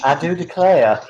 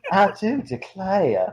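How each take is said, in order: First: Mock Southern Belle; bad Southern Belle. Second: Slow, high, drawn-out mock Southern Belle; hammed-up Southern Belle drawl; bad Southern Belle. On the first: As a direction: ham up a terrible Southern Belle. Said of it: "my Southern Belle horrible on purpose". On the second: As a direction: stretch it into a terrible Southern Belle. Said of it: "doing bad Southern Belle over and over".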